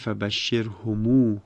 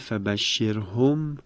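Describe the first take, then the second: First: The final m is lengthened with a long u. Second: The word ends on a silent m sound.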